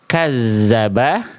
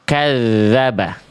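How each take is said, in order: First: The middle consonant is a buzzing 'z' sound. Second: The middle consonant is a 'th' as in 'this'. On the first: The speaker calls it wrong. "jangan dibaca" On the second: The speaker calls it right. "tapi kita baca"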